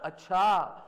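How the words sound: It sounds shocked and surprised.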